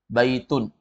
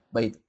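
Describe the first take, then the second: First: The word ends with an n sound. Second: The word ends on a vowel, no n. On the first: The speaker calls it right. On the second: The speaker calls it wrong. "Bukan dibaca baitu"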